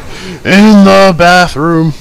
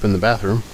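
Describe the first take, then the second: First: It is said in a put-on impersonating voice. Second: It is said in the speaker's normal voice.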